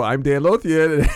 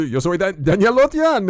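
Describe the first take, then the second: First: Said in the usual way. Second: Higher dubbed Spanish announcer voice; Spanish dubbing voice. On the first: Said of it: "And then I go". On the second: Retold or imitated. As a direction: sign off like a Spanish dub. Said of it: "and you".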